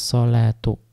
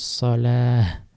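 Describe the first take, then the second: First: The word ends with a t sound and vowel. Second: The word ends with an h sound.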